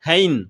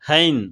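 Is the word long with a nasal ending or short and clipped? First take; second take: long nasal; long nasal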